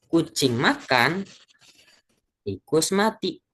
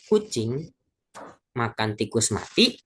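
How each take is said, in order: First: There is a break after 'makan'. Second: The phrase runs straight through without a break.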